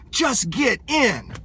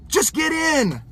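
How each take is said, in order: First: Slow and easy, "Just get in." said gently, drawn out; calm, slow invitation. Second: "Just get in." lifted higher, firm, stressed on IN; emphatic higher repeat. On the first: Coach to hesitant prospect, gentle slow nudge. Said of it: "Just say". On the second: Coach to prospect making excuses, firm higher push. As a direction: press the point home, friendly but firm. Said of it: "You don't have to say it harsh and mean". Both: Shown as a demonstration.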